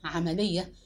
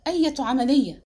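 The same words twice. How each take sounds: First: Low, dazed echo of the word; stunned question. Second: Loud, demanding question; stunned cry. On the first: Husband echoing the maid's word, stunned. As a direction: repeat it low, as if it won't sink in. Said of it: "في ذهول وصحت بها". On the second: Husband rounding on the maid, a loud bewildered cry. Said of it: "وصحت بها". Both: A narrator's reading.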